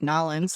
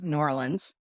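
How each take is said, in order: First: The name is squeezed into two syllables. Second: The name is said in full syllables. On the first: The speaker is sounding like a local. "I'm just trying to be like Nolans, like I'm here" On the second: The speaker is sounding like an outsider from the North. "what I would call it in Chicago"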